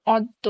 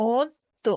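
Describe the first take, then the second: First: Said in the usual way. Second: অদ্য said as ওদ্দো, first vowel rounded to o; pronounced. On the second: Shown as a demonstration. Teacher modelling how অদ্য is pronounced. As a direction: say অদ্য with an o sound, ending in a rise. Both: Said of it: "এর উচ্চারণ হবে".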